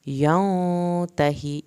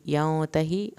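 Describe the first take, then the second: First: "ینتہی" slow, with a short i on the ha. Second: Said in the usual way. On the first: Shown as a demonstration. Teacher to students: slow recitation. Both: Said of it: "ہا کی زیر کو نہیں کھینچنا".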